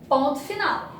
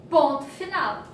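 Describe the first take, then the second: The two takes are said the same way.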